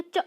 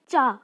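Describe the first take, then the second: First: च with a short clipped a, the Sanskrit way; Sanskrit cha. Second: चा with a full long aa, the Hindi way; Hindi cha. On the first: Teacher showing students the Sanskrit way, short च. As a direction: say च short and quick, not चा. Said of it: "Sanskrit में बोलेंगे च". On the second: Teacher showing students the Hindi way, चा with long aa. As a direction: say चा as in Hindi, vowel drawn out. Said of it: "Hindi में चा". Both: Shown as a demonstration.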